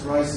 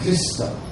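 First: The name ends in a consonant sound. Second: The name ends in an added vowel sound. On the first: This is the English form of the name. "Christ is the English pronunciation" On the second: This is closer to the original form of the name. "the more interpretation from the original is more Christa"

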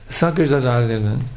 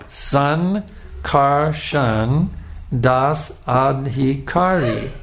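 First: The name is mumbled quickly and unclearly. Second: The name is said slowly and distinctly.

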